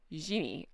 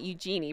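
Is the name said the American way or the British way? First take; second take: British; American. First: The name is said in a British way. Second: The name is said in an American way. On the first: The speaker calls it right. "no, you dumb American, it's Eugenie" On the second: The speaker calls it wrong. "I want to call it Eugenie"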